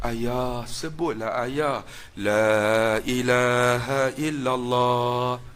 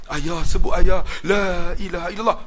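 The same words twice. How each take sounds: First: Soft, slow, pleading whisper-close voice; mournful tone. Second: Said in the usual way. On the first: Retold or imitated. Son urging dying father to say the creed, softly mournful. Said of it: "dia buat nada sayu". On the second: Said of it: "second urging, unnamed".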